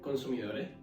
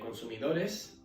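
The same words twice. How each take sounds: First: The s is aspirated, as in Canarian Spanish. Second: The s is pronounced clearly as in standard Spanish.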